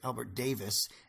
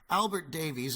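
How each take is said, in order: First: The surname is said as the simpler form, Davis. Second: The surname is said in its Welsh form, Davies. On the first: "as a kid we always pronounced it Albert Davis" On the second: "Davies is a Welsh name"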